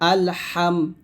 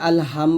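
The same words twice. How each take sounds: First: The h comes from the middle of the throat. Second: The h is a plain, light breath sound. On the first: The speaker calls it right. "হলকের মাঝখান থেকে নিয়ে আসতে হবে" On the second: The speaker calls it wrong. "আল হাম বলবেন না যদি আল হাম বলেন তাহলে এটা বড় একটা ভুল"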